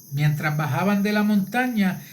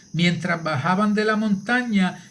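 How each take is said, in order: The two takes are said the same way.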